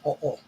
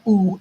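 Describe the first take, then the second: First: The vowels are two separate short sounds. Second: The vowels merge into one long sound. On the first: The speaker calls it right. "it's o o ... It's always short" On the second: The speaker calls it wrong. "it's not oo"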